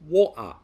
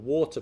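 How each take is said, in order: First: The middle sound is a glottal stop. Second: The middle sound is a clear T. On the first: "Replacing the T sound with a glottal stop" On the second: "the T that comes from the front of the mouth"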